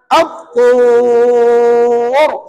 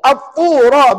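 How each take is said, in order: First: The word ends on a long-held consonant. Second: The word ends with a short final vowel. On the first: The reader stops at this word. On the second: The reading continues without stopping.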